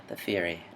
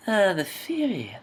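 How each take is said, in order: First: Softer second try. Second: Wrong voice try. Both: Shown as a demonstration. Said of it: "No, wait, not that".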